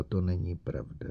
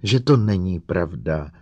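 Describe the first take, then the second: First: Soft, dazed murmur; murmured softly to herself; quietly pleading; repeating, dazed. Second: Louder, insistent repetition; pressing for reassurance; insistent repeat. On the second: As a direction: insist on it this time. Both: A narrator's reading. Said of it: "neustále opakovala".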